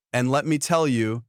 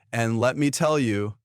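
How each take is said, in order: Both takes have the same delivery.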